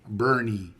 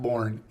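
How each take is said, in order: First: The name is said as two syllables. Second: The name is said as one syllable. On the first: The speaker calls it right. "it's Bernie" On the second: The speaker calls it wrong. "people pronounce this Born, and it's not Born"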